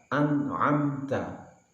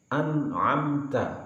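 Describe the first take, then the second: The two takes are said the same way.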